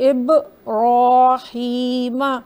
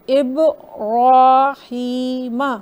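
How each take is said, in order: No difference in how they are said.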